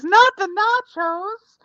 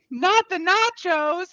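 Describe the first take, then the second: First: Replaying it. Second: High, slow alarmed plea. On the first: Shown as a demonstration. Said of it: "listened to that, by the way, as". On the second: Real, not acted. Nachos nearly spilled.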